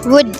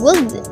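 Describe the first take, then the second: First: The L sound is left out of the word. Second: The L sound is pronounced in the word. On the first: The speaker calls it right. "dengan L silence, yaitu ditiadakan L-nya" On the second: The speaker calls it wrong. "bukan dengan would"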